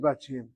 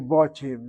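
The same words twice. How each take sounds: First: The first vowel is an a sound. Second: The first vowel is an o sound. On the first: This is how people actually speak. The speaker calls it right. "in pronunciation, people ... say Batim" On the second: This is the grammatically correct form. The speaker calls it wrong. "That probably is an or sound, which is probably so grammatically"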